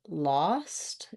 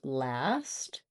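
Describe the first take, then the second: First: The vowel is the open 'ah' sound. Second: The vowel is the front 'a' sound. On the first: The speaker calls it wrong. "or lost" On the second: The speaker calls it right. "instead of last"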